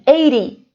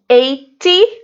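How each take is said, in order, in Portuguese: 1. O T do meio soa como um R rápido. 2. O T do meio é pronunciado como um T claro.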